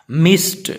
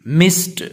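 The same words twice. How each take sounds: The two takes are said the same way.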